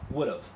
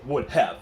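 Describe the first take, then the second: First: 'Would have' is shortened into one reduced form. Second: Both words of 'would have' are said in full. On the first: The speaker calls it right. "外国人讲话的时候会" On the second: The speaker calls it wrong. "不是 ... 那个太正式"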